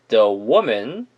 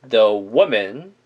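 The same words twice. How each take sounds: Both takes have the same delivery.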